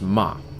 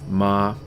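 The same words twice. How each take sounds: First: The pitch drops sharply from high. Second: The pitch stays high and level. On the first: It means scold. "The dropping tone is uh, the fourth tone" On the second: It means mother. "the first tone is a high flat tone"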